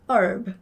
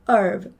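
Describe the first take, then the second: No difference in how they are said.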